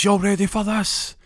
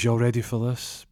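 First: High, loud, drawn-out hype call. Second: Deflated, lifeless hype call; limp delivery. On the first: DJ hyping the dance floor before the drop, big hype call. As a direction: whip the crowd up like a club DJ. DJ hypes the crowd before track. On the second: DJ hitting the track again, a limp half-hearted call. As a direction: say it like all the energy is gone. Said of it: "he says it very limp". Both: Retold or imitated.

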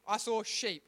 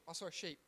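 First: Said in the usual way. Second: Much softer, trailing retry of I saw a sheep; muttered retry. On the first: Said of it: "How did I say it?". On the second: Shown as a demonstration. Teacher testing a sentence, much softer. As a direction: mumble I saw a sheep to yourself. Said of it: "Oh, that doesn't work".

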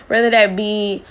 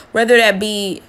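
Both takes have the same delivery.

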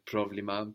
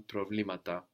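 First: Problema stressed on pro; accent on pro. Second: Problemata with the stress moved onto ble; accent on ble. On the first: Teacher showing the singular stress. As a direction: hit the first syllable of problema. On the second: Teacher showing the plural moving the stress. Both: Shown as a demonstration. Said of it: "the plural neuter that moves the accent".

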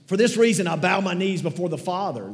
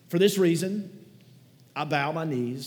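First: Much higher and louder, a proclaimed scripture reading. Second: Higher, louder opening of a scripture reading, rising. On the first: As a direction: announce the verse with full force. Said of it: "if you're not there yet". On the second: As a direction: start the reading aloud to the room. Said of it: "I'm gonna read it from the screen". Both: Shown as a demonstration.

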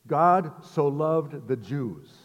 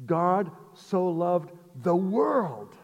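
First: Slow, weighty reading with the stress on God; slow deliberate quote. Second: "God so loved the world" very slow, higher and weighty, landing hard on world; slow emphatic proclamation. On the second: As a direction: stretch it out and hit the word world. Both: Shown as a demonstration. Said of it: "he rocked Nicodemus's world when he says".

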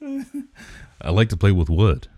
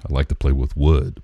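First: Slow, higher-pitched, drawn-out delivery; playful mock ASMR. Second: Said in the usual way. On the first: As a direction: stretch it out teasingly for the joke. Joking slow repeat for ASMR bit.

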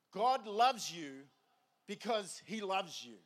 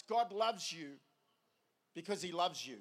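First: Half speed, weighing each word; slow and deliberate. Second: Said in the usual way. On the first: Real, not acted. Preacher wants the congregation to think about this, slow and deliberate. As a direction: let every word land, very slowly. Repeats it slowly for emphasis.

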